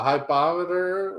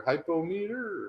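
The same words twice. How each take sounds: First: "hypometer" stressed on the second syllable, hy-POM-eter; "hypometer" as hy-POM-i-ter; alternate pronunciation. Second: "hypometer" as hype-o-meter, in separate parts; "hypometer" with a clear "meter" at the end; alternate pronunciation. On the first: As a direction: say "hypometer" to rhyme with thermometer. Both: Shown as a demonstration. Contrasts two ways to say it.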